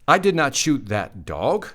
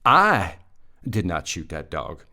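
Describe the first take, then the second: First: The word "dog" is stressed. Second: The word "I" is stressed. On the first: The animal may not have been a dog. "Question mark. I don't think it was a dog" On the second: Someone else shot the dog. "I didn't shoot it, somebody else did"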